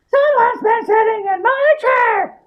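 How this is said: It is said in a middle-sized voice. The middle-sized character is speaking. "Said Mother Bear in her middle-sized voice"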